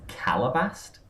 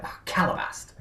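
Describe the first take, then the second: First: Said in the usual way. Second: High, breathy exclamation of CALABAST; mock cursing. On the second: Cartoon character swears when something goes wrong, mock exasperation. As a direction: curse "Calabast" in a high, hushed voice.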